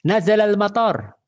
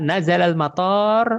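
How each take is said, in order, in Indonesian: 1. Vokal dalam 'mator' pendek. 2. Vokal dalam 'mator' panjang. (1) "Turun hujan" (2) "kalau kita panjangkan"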